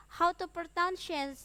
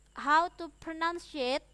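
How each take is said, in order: Both takes have the same delivery.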